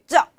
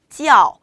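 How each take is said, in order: First: The word is clipped short and abrupt. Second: The word is said slowly with a full glide. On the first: The speaker calls it wrong. "이렇게 짜! 짝 이런 식으로 네, 표현하시는 분들 계세요" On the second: The speaker calls it right. "일단 천천히 발음하는 연습해 주세요"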